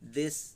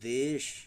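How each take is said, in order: First: The final sound is a hissing 's'. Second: The final sound is a hushing 'sh'. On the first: The speaker calls it wrong. "देश बोलेंगे तब भी गलत हो गया" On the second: The speaker calls it right. "जीभ हल्का सा दांत के ऊपर तालू में सटा रहेगा तो तालव्य श होगा"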